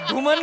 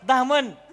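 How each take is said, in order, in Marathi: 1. पहिला स्वर 'u' सारखा वाटतो. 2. पहिला स्वर 'a' सारखा वाटतो. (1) "धुमन नाही हो"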